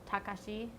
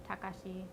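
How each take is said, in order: The two takes are said the same way.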